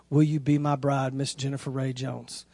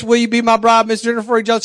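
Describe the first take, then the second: First: Low, soft proposal question, fading at the end; hushed, earnest recital; tender proposal. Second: Higher, rattled-off proposal question; keyed-up retold proposal; hurried proposal. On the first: Retold or imitated. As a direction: pop the question quietly and sincerely. Retells reading the proposal question. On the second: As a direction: get the question out in an excited rush. Retells hurriedly finishing the question.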